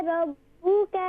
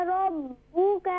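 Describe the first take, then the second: No difference in how they are said.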